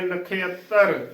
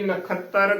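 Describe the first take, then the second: First: An 'ia' vowel follows the 'kh' sound. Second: A plain 'a' vowel follows the 'kh' sound. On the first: The speaker calls it right. "ਨਖੇਅੱਤਰ ਉਚਾਰਨ ਕਰਨਾ ਹੈ" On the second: The speaker calls it wrong. "ਨਾ ਕਿ ਨਖੱਤਰ ਕਰਾਂਗੇ ਗਲਤ ਉਚਾਰਨ ਹੋਵੇਗਾ"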